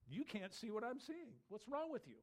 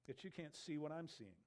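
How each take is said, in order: First: Higher, incredulous "You can't see what I'm seeing"; exasperated disbelief. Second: Said in the usual way. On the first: Acted. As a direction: challenge them, pitch raised on "You can't see". Repeated as exasperated challenge.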